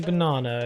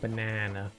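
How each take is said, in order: First: It is said with a non-American accent. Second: It is said with an American accent. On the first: "We say banana" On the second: "you go banana"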